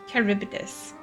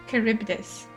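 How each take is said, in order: The two takes are said the same way.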